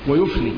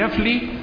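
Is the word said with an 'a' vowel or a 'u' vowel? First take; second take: u vowel; a vowel. First: The word is said with a 'u' vowel. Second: The word is said with an 'a' vowel. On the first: "والضم" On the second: "بالفتح"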